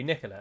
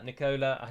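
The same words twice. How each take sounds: First: The name is pronounced the English way. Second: The name is pronounced the Italian way. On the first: The name belongs to a woman. "in England that would be Nicola" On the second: The name belongs to a man. "I'm calling him Nicola because I'm sure it's a man"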